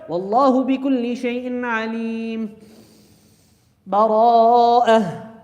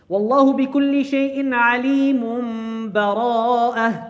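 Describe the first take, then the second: First: A pause with a breath comes before the last word. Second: The last two words are joined without a pause.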